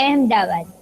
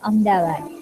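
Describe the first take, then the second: First: The name is said in its full form. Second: The name is said in a shortened form. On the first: This is how the name is written. The speaker calls it wrong. "અહેમદાબાદ એમ નથી બોલતા" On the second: This is how people actually say it. The speaker calls it right. "તો બોલાય શું અમદાવાદ"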